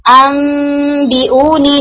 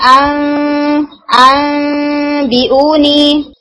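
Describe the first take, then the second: First: अम बी ऊ नी with lips lightly closed on the मीम, slow and held; lips joined recitation. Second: अम बी ऊ नी with a tiny gap between the lips, held nasal; paper gap recitation. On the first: Teacher demonstrates the lips-joined reading of अम बी ऊ नी. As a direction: close the lips gently on अम, then बी ऊ नी. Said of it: "lips पूरी तरह से मिलने चाहिए". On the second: Teacher demonstrates the paper-gap reading of अम बी ऊ नी. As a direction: leave a paper-thin gap on अम. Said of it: "paper gap के साथ पढ़ते हैं". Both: Shown as a demonstration.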